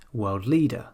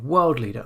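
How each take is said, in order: First: "world leader" as world LEADER; stress on second word. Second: "world leader" wrongly as WORLD leader; stress on first word. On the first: Teacher gives the correct compound, stress on LEADER. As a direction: land on "leader", not "world". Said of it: "we say". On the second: Teacher shows the form to avoid, stress on WORLD. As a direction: punch "world", let "leader" fall. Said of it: "instead of saying". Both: Shown as a demonstration.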